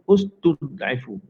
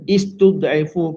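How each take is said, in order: First: The word begins with a u vowel. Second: The word begins with an i vowel. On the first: The speaker calls it right. "jawapannya dibaca dengan ustud'ifu" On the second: The speaker calls it wrong. "Istud'ifu ke"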